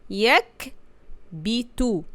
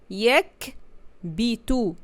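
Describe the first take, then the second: The two takes are said the same way.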